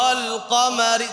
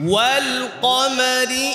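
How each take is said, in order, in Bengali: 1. এটি অগোলাকার ঠোঁটে 'a' ধ্বনি দিয়ে শুরু হয়। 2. এটি গোলাকার ঠোঁটে 'w' ধ্বনি দিয়ে শুরু হয়।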